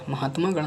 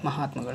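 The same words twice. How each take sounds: First: महात्मागण with long maa; wrong form. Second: महात्मागण with short ma, softer; corrected form. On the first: Teacher shows the error, महात्मागण with long maa. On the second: Teacher corrects students, softer महात्मागण with short ma. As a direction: shorten ma before gan in महात्मागण. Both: Shown as a demonstration. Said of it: "नहीं होता है".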